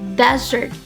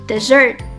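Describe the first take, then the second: First: The stress is on the first syllable. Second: The stress is on the second syllable. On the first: The speaker calls it right. "with the stress on the first syllables. So you say desert" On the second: The speaker calls it wrong. "not dessert"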